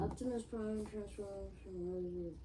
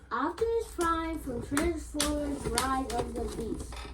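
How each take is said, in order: First: It is said quietly. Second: It is said loudly.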